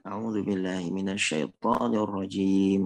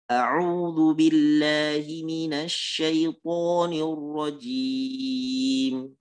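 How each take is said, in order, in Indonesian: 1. Dibaca datar dan biasa saja, tanpa perhatian. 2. Dibaca dengan cara yang seimbang dan terukur. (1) "Bacanya datar, biasa" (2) "bacaan yang pertengahan, yang dibaca secara tartil"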